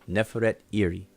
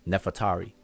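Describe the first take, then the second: First: It is said as two separate words. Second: It is said quickly as one run-together word. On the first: This is how the name is written in the cartouche. "but it's actually Neferet Iri. One word Neferet, another word Iri" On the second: This is the usual modern way people say it. "we're accustomed just saying it fast and and a little slightly different pronunciation"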